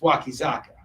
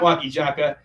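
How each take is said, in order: First: The middle consonant is a Z sound. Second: The middle consonant is a J sound. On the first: This is the name's original pronunciation. The speaker calls it right. "it's Wakizaka" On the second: Korean speakers lack a Z sound and substitute J. The speaker calls it wrong. "they just pronounce it with the G with the J sound"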